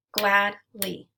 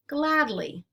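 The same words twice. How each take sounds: First: "Gladly" in two beats with a gap, GLAD, LY; split into syllables. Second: Said in the usual way. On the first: Shown as a demonstration. Teacher clapping out syllables for learners, "Gladly" segmented as glad ... ly. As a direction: break "Gladly" between glad and ly. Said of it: "we'll clap out the syllables". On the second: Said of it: "Let's segment syllables now".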